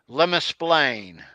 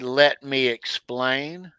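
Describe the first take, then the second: First: The words are run together as one word. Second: The words are said separately and fully. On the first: "one word" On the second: "we don't say"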